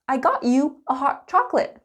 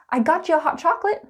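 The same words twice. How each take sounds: First: It is said slowly with every word clear. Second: It is said quickly with a ch sound linking.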